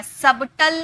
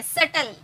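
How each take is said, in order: First: सबटल with a clear b before the t; sounded b. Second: सटल said "sutl", no b; silent b. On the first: Teacher showing what not to say, सबटल with audible b. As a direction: voice the wrong b in सबटल. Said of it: "नहीं बोलते हैं". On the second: Teacher giving students the model, सटल without any b. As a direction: go straight from vowel to t in सटल. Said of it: "ये silent है". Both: Shown as a demonstration.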